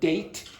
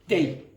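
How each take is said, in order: First: The final T is clearly pronounced. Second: The final T becomes a glottal stop. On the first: "instead of date" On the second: "you might get day, day, day"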